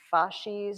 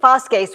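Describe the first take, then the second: First: It is said with an English pronunciation. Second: It is said with a classical Latin pronunciation. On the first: "you probably say fasces or something like that in English" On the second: "fasces would be classical pronunciation Latin"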